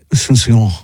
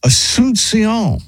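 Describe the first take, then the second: First: Asuncion in a French accent, dropping the ending, as susio; mock French Asuncion; French pronunciation. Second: Asuncion drawn out slowly, pitched high; careful slow try at Asuncion; pronouncing Asuncion. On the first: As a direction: say Asuncion the French way, swallowing the last syllable. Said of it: "that's how the French go". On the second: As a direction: sound out Asuncion slowly, syllable by syllable. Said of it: "trying to pronounce a word". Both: Shown as a demonstration.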